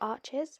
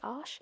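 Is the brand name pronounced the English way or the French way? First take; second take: English; French. First: It is pronounced the English way. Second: It is pronounced the French way. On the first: "a couple of different pronunciations there" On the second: "the French pronunciation"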